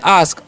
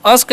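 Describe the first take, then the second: First: "आस्क" with a long open aa, ask; teacher models "आस्क" with a long aa; correct pronunciation. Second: "अस्क" with a short a, the mistake; teacher shows the wrong "अस्क" with a short a; wrong pronunciation. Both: Shown as a demonstration. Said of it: "अस्क नहीं पढ़ना है".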